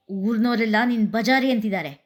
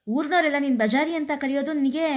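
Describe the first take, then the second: First: Raised voice. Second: ಊರ್ನೋರೆಲ್ಲ hit high, the line rising in outrage; higher, rising incredulous anger. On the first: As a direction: declare it in a big voice. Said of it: "ದೊಡ್ಡ ದನಿಯಲ್ಲಿ ಹೇಳಿದ". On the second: Anil, more provoked, repeating what the village calls her. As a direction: push it up in disbelief. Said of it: "ಅನಿಲ್ನನ್ನು ಇನ್ನೂ ಕೆರಳಿಸಿತು". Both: A narrator's reading.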